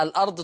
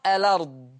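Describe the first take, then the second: First: "الأرض" as al-'ard; original hamza. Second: "الأرض" as a-lard; no glottal stop in "الأرض"; hamza transfer. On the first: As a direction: glottal stop after the l in "الأرض". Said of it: "يبقى الأرض تقرأ". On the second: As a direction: run l into the vowel in "الأرض". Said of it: "بشيل الهمزة وانقل الحركة". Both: Shown as a demonstration.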